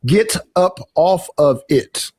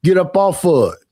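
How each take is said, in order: First: "Get up off of it" slowly, every word separate; slow, fully pronounced "Get up off of it"; careful Northern pronunciation. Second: "Get up off of it" run together as "git up off uh it"; Southern-style run-on "Get up off of it"; Southern pronunciation. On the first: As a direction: enunciate each word of "Get up off of it". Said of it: "up here, what we would say is". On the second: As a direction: slur "Get up off of it" into one quick phrase. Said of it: "But down in the South, they would say". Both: Shown as a demonstration.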